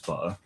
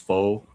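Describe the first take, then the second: First: It is pronounced the way Vietnamese speakers say it. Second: It is pronounced the way English speakers say it. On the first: "but Vietnamese is pho" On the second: "that's how English people pronounce this"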